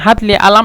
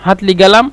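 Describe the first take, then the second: First: The last word starts with a glottal catch. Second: The last word starts with a hard G sound. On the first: It is the Cairo dialect. "এটা হলো মিশরের কায়রোর ভাষা" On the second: It is the Upper Egyptian dialect. "সঈদ বলছিলাম আহলু সঈদ তারা কিন্তু কফকে গয়ন বলে"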